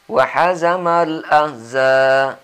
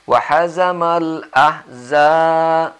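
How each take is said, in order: The two takes are said the same way.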